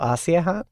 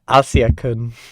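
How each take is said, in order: First: No k sound is heard mid-name. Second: A k sound is heard mid-name.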